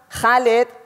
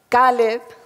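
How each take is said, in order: First: The name begins with a harsh throat sound. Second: The name begins with a plain K sound. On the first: The speaker calls it right. "la K H es nuestra J" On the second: The speaker calls it wrong. "No se pueden imaginar cuando yo oigo"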